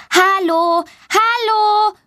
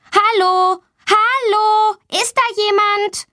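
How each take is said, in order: First: Put-on high child's call, not much louder. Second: Put-on high child's call for help, not much louder. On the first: Girl hears children and calls to them, high. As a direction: call after the passing voices. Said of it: "ruft sie laut". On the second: Girl locked in the toilet calls out for anyone, high. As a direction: call through the locked door. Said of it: "Sie ruft laut". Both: A narrator's reading.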